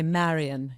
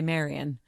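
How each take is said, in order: First: The first vowel is said wide and open. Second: The first vowel is said plainly, not opened. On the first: This is the character's more proper speech. "he's always trying to get me to open my" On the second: This is how she herself would normally speak. "I'd say Marion"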